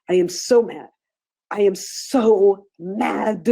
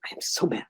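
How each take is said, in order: First: Very slow and louder, each word stretched; drawn-out mad. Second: Breathy whisper, mad said under the breath; whispered to yourself. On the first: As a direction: lean into the anger, slowly and forcefully. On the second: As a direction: whisper the feeling while tapping. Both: Shown as a demonstration. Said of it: "you're tapping and you're saying".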